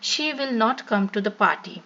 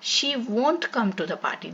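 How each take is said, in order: First: "Will not" is said as two full words. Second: "Will not" is shortened to one syllable, "won't". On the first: "विल नॉट" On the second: "विल नॉट का contraction form जो होता है वोंट"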